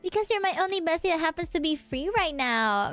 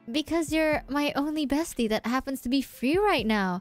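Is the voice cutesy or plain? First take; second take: cutesy; plain. First: It is said in a sickeningly cute voice. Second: It is said in a plain, ordinary voice. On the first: The speaker calls it right. "Mika answered with a sickening cutesy voice" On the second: The speaker calls it wrong. "Oh, sorry"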